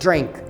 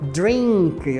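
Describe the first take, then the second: First: The vowel is short and clipped. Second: The vowel is long and drawn out. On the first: The speaker calls it right. "o I curtinho para drink vai ser drink" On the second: The speaker calls it wrong. "Não vai dizer drink"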